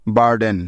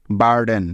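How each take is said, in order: Both takes have the same delivery.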